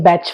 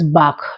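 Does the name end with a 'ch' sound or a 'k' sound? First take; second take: ch; k. First: The name ends with a 'ch' sound, like batch. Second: The name ends with a hard 'k' sound. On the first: "some people say batch flower" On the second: "The right pronunciation is Bach"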